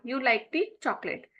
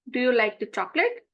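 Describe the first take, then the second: First: "chocolate" falling at the end; statement intonation. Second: "chocolate" rising at the end; rising question intonation. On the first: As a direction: let the voice drop on "chocolate" as a statement. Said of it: "This is a statement". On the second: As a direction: lift the voice on "chocolate" to ask. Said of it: "I will increase my tone at the end". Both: Shown as a demonstration.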